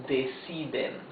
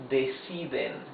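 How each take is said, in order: The two takes are said the same way.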